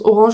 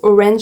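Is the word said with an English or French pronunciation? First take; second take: French; English. First: It is pronounced the French way. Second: It is pronounced the English way.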